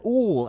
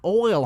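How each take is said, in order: First: The vowel is a plain 'oo' sound. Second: The vowel is an 'oy' sound. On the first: The speaker calls it wrong. "some things that my family would say, like" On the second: The speaker calls it right. "You pronounce it like oil"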